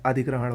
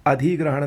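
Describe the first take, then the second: First: अधिग्रहण with short "dhi"; correct pronunciation. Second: अधिग्रहण with long "dhee"; wrong pronunciation. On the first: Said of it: "होता है". (अधिग्रहण में छोटी "इ") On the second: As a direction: stretch the i of अधिग्रहण. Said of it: "नहीं होता है". (अधिग्रहण को "अधीग्रहण" बोलें) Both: Shown as a demonstration.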